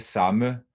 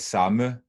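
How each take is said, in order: First: The word is said with two syllables. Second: The word is said with two syllables.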